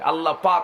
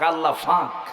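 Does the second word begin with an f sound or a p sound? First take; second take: p sound; f sound. First: The second word begins with a p sound. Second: The second word begins with an f sound. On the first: "নোয়াখালীতে প নাই" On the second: "আল্লাহ ফাঁক হয় না"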